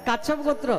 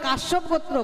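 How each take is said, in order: First: The first word's middle consonant is a 'ch' sound. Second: The first word's middle consonant is a 'sh' sound. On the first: It sounds like the word for tortoise. The speaker calls it wrong. "তারা কাশ্যপ গোত্রকে বলে কাচ্ছপ গোত্র" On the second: It names descent from the sage Kashyapa. The speaker calls it right. "এটা কাচ্ছপ নয় রে বাবা, ওটা কাশ্যপ গোত্র"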